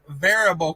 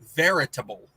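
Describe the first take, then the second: First: The word is said without a T sound. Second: The word is said with a T sound. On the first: "A N says they are very variable cost" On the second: "I put a T in there"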